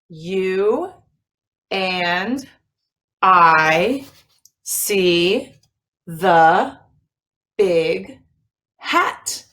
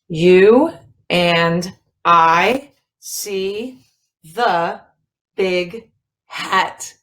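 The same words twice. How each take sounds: First: The sentence is read at a slower pace. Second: The sentence is read at a faster pace.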